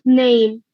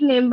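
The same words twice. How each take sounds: First: The vowel is stretched, ending in a y glide. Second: The vowel is short and plain, without a glide. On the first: The speaker calls it right. "actual pronunciation of name is name" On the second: The speaker calls it wrong. "we say it name"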